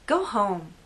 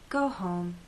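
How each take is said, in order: First: It is said in a harsh, rude tone. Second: It is said in a kind, caring tone. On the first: The listener is unwanted and must leave. "The first way could be said to a person who came to a party of mine uninvited... I want this person out of my house" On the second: The listener should rest after working late. "The second way could be said to a coworker who's at the office very late"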